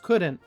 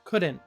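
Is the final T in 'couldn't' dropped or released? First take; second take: dropped; dropped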